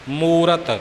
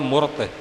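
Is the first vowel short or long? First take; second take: long; short. First: The first vowel is a long u. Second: The first vowel is a short u. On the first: The speaker calls it right. "ਮੰਮੇ ਨੂੰ ਦੁਲੈਂਕੜ ਹੈ" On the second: The speaker calls it wrong. "ਜੋ ਕਿ ਬਿਲਕੁਲ ਹੀ ਗਲਤ ਹੈ"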